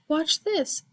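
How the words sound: It is said in a small, high goat voice.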